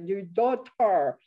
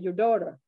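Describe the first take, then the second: First: The word is pronounced carefully, as taught. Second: The word sounds like the name Dora. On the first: This is how it was taught abroad. "you say daughter" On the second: This is how local people say it. "it sounded more like uh, people were saying the name D O R A, Dora"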